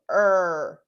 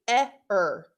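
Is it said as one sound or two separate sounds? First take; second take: one sound; two sounds. First: The two letters blend into one sound. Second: The two letters are sounded separately. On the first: The speaker calls it right. "it comes together to make an unexpected sound" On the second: The speaker calls it wrong. "if we were sounding this out, it would just be eh-er ... That's a silly sound"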